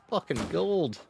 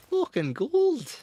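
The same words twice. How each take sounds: First: Excited praise. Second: Much higher, louder and drawn out; hammed-up triumphant yell; gleeful shout. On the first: Praising a shot. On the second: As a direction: crow over a perfect shot. Repeats praise bigger. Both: Real, not acted.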